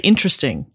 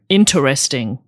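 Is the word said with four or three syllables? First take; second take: three; four. First: It is said with three syllables, 'ter' dropped. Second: It is said with four syllables, including 'ter'. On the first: "We would just say interesting" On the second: "Inter. So I put the er in"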